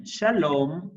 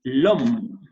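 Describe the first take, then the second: First: Said in the usual way. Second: "Sha-lom" broken into two beats, Sha then lom, louder; split into syllables. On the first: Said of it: "Vean la estructura". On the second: Shown as a demonstration. Teacher splits shalom into syllables for the class, louder. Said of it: "Consonante, vocal".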